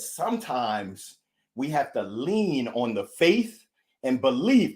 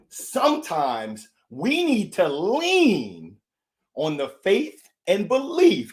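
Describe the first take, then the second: First: It is said at a normal pace. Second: It is said more slowly.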